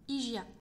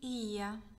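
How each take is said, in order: First: The word has a French pronunciation. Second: The word has a Greek pronunciation. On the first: "prononcé à la française" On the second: "Dit comme ça"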